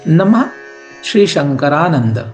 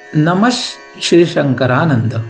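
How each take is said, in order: First: A soft breathy sound comes before 'shri'. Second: A short 'sh' sound comes before 'shri'. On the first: "एक तो यह अर्ध विसर्ग जैसे उच्चारण इसका होगा" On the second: "या फिर आधा श हम लोग इसको गा सकते हैं"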